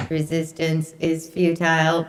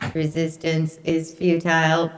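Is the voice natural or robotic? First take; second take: robotic; robotic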